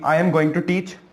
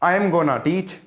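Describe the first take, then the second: First: 'Going to' is said in full. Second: 'Going to' is reduced to 'gonna'. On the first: "गोइंग टू" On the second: "गोइंग टू की जगह आप लगा देंगे गोना"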